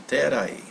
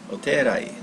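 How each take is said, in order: Both takes have the same delivery.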